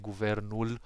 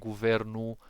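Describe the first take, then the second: First: The final L is fully pronounced. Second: The final L is dropped, said quickly. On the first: "than when you say guvernul" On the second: "it sounds a bit faster and it's a bit more fluent"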